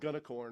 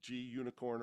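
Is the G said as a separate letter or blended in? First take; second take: blended in; separate letter. First: The G is blended into one word. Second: The G is said as a separate letter. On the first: "I say Gunicorn" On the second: "or however you want to say that one"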